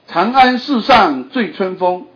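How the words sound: The line is read in Mandarin Chinese. The speaker calls it wrong. "你用北京语念"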